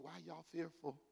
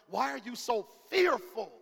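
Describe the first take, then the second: First: It is said in a soft, gentle tone. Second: It is said in a harsh, scolding tone.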